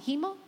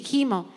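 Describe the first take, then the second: First: "¿Gimo?" asked softly with a rising tune; puzzled question. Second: "gimo" said firmly with a falling tune; settled answer. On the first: Preacher pausing over a word in the psalm, puzzled. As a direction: quietly query the word "¿Gimo?" as if unsure. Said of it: "Ok, sí, gimo". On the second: Preacher answering her own question about the word, decisive. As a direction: confirm "gimo" with a falling close. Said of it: "Ok, sí". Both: Shown as a demonstration.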